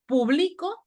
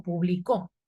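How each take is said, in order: First: "publico" as pu-BLI-co, pitched higher; stress on middle syllable. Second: "Publicó" stressed on the end, publi-CÓ; stress on last syllable. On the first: Teacher showing present tense, "publico" stressed on BLI. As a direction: put the weight on BLI in "publico". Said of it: "en qué tiempo está en relación con publicó". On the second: Teacher showing the past tense, "Publicó" stressed on CÓ. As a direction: land on the final CÓ of "Publicó". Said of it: "lleva tilde en la O". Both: Shown as a demonstration.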